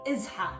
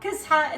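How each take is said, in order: First: The word begins with a vowel, no k. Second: The word begins with a k sound. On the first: The speaker calls it right. "it's really izha" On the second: The speaker calls it wrong. "or kizha"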